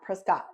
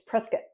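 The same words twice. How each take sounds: First: The name is said the out-of-town way. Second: The name is said the local way. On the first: The speaker is from out of town. The speaker calls it wrong. "not Prescott" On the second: The speaker is from the area. The speaker calls it right. "So it's Prescott"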